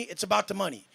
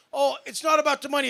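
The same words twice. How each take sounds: First: Said in the usual way. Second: Mocking a fake-humble claim, a little higher and louder; mocking quote. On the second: Mocking what rich people claim, in a sneering voice. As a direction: sneer it back like a cliché he hates. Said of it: "this is what people say".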